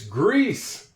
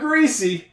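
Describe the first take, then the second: First: The word ends without any extra vowel sound. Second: The final e is sounded as an extra vowel. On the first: The speaker calls it right. "It's grease" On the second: The speaker calls it wrong. "It's not greasy"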